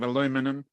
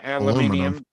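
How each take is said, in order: First: It is said the American way. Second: It is said the British way.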